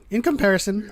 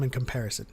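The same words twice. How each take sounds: First: "In comparison" lifted higher in emphasis; higher-pitched, insistent "In comparison"; stressed qualification. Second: Said in the usual way. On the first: Real, not acted. Repeats it to qualify the claim.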